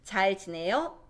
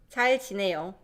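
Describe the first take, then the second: First: The pitch rises at the end. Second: The pitch falls at the end. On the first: It asks whether someone is doing well. "Raise the intonation. ... Question" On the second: It states that one is doing well.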